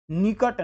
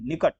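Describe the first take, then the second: First: निकट as "neekat"; wrong long ee. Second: निकट as a quick "nikat"; short i. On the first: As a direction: stretch the first vowel of निकट. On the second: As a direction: keep the first vowel of निकट short. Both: Shown as a demonstration. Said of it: "निकट नहीं".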